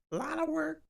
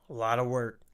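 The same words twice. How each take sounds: First: A lot of work said in a high squeaky voice; goofy falsetto on A lot of work. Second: Said in the usual way. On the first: Shown as a demonstration. Repeats phrase in silly voice.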